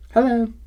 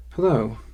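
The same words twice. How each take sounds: First: High, loud bright hello; Sumi's greeting voice. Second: Said in the usual way. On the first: Acted. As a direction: greet him in her own voice. Sumi greets from the doorway.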